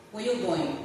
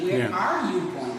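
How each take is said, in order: First: "Where you going?" said as Creole, with no verb "are"; Creole phrasing. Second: "Where are you going?" with "are" said clearly; full English "Where are you going?", "are" sounded; standard English. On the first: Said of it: "Creole people would say". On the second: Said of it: "We don't use a verb to be". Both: Shown as a demonstration.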